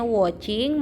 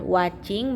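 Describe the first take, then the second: First: "watching" as wo-ching; o vowel in place of a in "watching"; correct reading. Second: "watching" as wat-ching, with an a; a vowel in "watching"; spelling pronunciation. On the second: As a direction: read "watching" as written. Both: Shown as a demonstration. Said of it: "bacanya watching".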